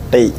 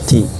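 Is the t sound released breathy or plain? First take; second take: plain; breathy. First: The t is released without a breathy puff. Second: The t is released with a breathy puff. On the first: The speaker calls it wrong. "bukan ti" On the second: The speaker calls it right. "sifat hamzahnya"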